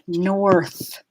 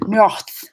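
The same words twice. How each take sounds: First: A clear English R links smoothly into th. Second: The R is a throaty French-style sound. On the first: The speaker calls it right. "one consistent linked up sound like north" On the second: The speaker calls it wrong. "doing like a French kind of R"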